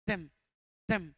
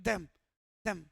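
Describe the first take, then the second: Both takes have the same delivery.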